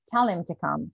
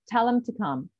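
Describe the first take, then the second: First: The word 'him' is unstressed and reduced. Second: The word 'him' carries clear stress. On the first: "if it's just a normal speech" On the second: "The other one"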